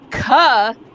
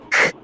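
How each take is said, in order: First: The consonant is followed by an added vowel. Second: The consonant is said alone with no vowel. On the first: It carries far across a room. "I can say "ka" and everyone for three miles can hear me" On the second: It keeps the sound as pure as possible. "as much as you can, it's k, ah, and chop it"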